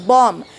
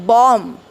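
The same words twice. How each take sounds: Both takes have the same delivery.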